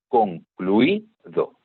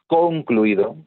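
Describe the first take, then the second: First: The stress falls on the second-to-last syllable. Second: The stress falls away from the second-to-last syllable. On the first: The speaker calls it right. "es concluido. La que suena más fuerte es esta sílaba" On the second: The speaker calls it wrong. "No es concluido"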